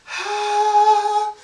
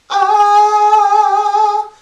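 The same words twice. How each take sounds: First: The vowel starts with a breathy puff of air. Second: The vowel starts cleanly without extra air. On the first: The speaker calls it wrong. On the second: The speaker calls it right.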